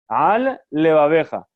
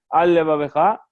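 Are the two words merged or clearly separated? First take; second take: separated; merged. First: Both L sounds are said separately and clearly. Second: The two L sounds merge into one L. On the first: The speaker calls it right. "separar las dos palabras de manera clara" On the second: The speaker calls it wrong. "para que parezca que solamente es una sola palabra con una sola Lamed en medio"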